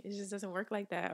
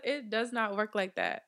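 First: Said in the usual way. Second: "does not" punched as two separate words; emphatic correction. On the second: Real, not acted. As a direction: lay down the law, hitting "does not". Restates it emphatically, uncontracted.

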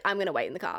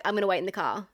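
First: Slightly lower, understated boyfriend impression; imitating boyfriend. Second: Said in the usual way. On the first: Boyfriend answering her in the car, imitated a little lower. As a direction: echo it lower, as the boyfriend would. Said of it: "And he was like". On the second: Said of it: "and I was like".

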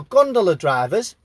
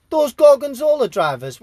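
First: Gondola said correctly, like the boat; self-correct to gondola drivers; corrected word. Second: Says Gorgonzola instead of gondola; wrong word. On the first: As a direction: fix the slip with gondola. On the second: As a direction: Gorgonzola drivers, the cheese name slipped in by mistake. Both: Real, not acted. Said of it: "No, gondola drivers".

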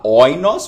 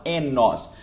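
First: "oinos" said oi-nos, diphthong sounded out; "oinos" with the full oi diphthong, as written; "oinos" read letter by letter, oi-nos; spelled-out pronunciation. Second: "enos" said e-nos, with a plain e; "enos" with the diphthong collapsed into e; "enos" spoken as eh-nos; real pronunciation. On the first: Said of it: "em vez de você falar oinos". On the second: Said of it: "você fala". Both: Shown as a demonstration.

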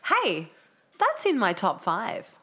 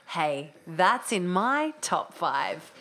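First: Slow, drawn-out voiceover line; slow delivery. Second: Very slow voiceover drawl; very slow delivery. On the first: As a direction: read it slowly like a promo. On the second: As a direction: stretch every word out. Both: Shown as a demonstration. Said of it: "Can I try?".

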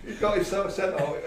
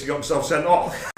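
First: Laughing. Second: Said in the usual way. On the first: Real, not acted. Repeats punchline laughing.

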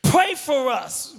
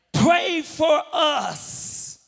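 First: Said in the usual way. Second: Crying out. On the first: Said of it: "That's real intercession right there". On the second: Acted. Father pleading with Jesus for his son, crying out. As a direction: stretch it out as a desperate cry. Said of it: "The Father cries out".

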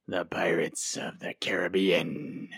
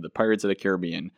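First: "the Pirates of the Caribbean" drawn out slowly in a hammed-up movie pirate accent, rising at the end; slow, rolling pirate-accent "Caribbean" with a lift. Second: Said in the usual way. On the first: Host announcing the topic in a hammed-up pirate accent. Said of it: "my not so great impression of ... pirate speak". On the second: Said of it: "that was my not so great impression".

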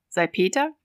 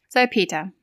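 First: "Salpeter" as a question, rising at the end. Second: "Salpeter" as a confirming statement, falling at the end; answering statement. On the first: Fortunato asks the narrator about the crust, questioning "Salpeter" with a rise. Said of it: "fragte er schließlich". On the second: Narrator confirms it to his friend, "Salpeter" stated with a falling end. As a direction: close "Salpeter" firmly, with no questioning lift. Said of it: "erwiderte ich". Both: Acted.

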